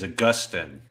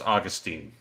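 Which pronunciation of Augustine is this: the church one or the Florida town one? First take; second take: church; Florida town. First: It is said the way the church name is. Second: It is said the way the Florida town is. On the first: It refers to the saint and the church tradition. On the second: It refers to the town in Florida. "town in Florida is Augustine"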